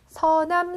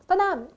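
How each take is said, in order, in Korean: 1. 평범하게, 또렷한 s 소리로 발음돼요. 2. 혀 짧은 소리로 발음돼서, s가 tt로 바뀌어요.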